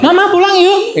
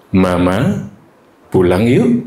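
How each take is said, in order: First: Put-on very high, pleading kid's voice; little child voice. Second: Said in the usual way. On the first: Shown as a demonstration. Teacher imitating a small child asking mama to go home, high. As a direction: squeak it up like a small child begging. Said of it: "Beda kan?". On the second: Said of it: "misalnya gitu".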